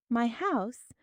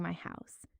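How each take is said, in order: First: MY HOUSE lifted higher in wonder. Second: Said in the usual way. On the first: A narrator's reading. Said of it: "evoked a profound sense of wonder".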